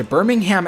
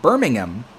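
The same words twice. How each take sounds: First: "Birmingham" with a sounded HAM; Alabama pronunciation. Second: "Birmingham" as BUR-ming-um; British way, wrong there. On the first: He names the Alabama city, "Birmingham" as BUR-ming-HAM. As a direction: finish "Birmingham" on a full "ham". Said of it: "it's Birmingham". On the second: He warns visitors to Alabama, "Birmingham" said with weak "-um". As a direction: say "Birmingham" with no "ham", just "um". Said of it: "you pronounce it Birmingham". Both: Shown as a demonstration.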